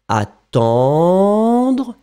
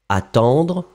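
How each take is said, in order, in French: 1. Le mot est étiré et allongé. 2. Le mot est prononcé à durée normale. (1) "On les fait plus longs, comme ça c'est plus clair" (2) "Et après, vous réduisez"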